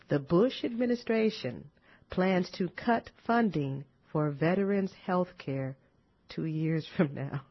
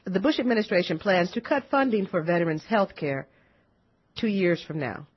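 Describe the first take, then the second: First: It is said slowly. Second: It is said at normal speed.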